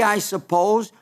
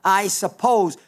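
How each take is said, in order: First: Said in the usual way. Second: Lightly imitated smart-aleck remark, falling at the end; a touch of know-it-all in the retelling. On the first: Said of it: "Jesus, Simon says". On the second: Simon answering Jesus, mildly smart-aleck. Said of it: "kind of a super smart aleck way".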